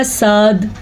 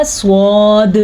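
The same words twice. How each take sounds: First: साद with a thin s and open aa; open-mouthed saad. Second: स्वाद with a heavy s and rounded w-like vowel; rounded swaad. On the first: Teacher showing the wrong reading, साद thin and open. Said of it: "मुंह खोल के पढ़ें तो निकलेगा". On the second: Teacher showing the right reading, स्वाद thick and rounded. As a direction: round the lips to make स्वाद full. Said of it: "मुंह को गोल करके पढ़ेंगे". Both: Shown as a demonstration.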